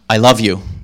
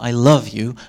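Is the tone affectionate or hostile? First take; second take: hostile; affectionate. First: It is said in a hostile, dismissive tone. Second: It is said in a warm, affectionate tone. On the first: The speaker wants the listener to go away. "get out of my face" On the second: The speaker sincerely loves the listener. "Context and tone of voice shape the meaning"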